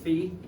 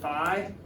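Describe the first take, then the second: First: It is said the original Greek way. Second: It is said the usual American way. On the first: "but the Greeks pronounced it phi" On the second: "In America, we tend to say phi"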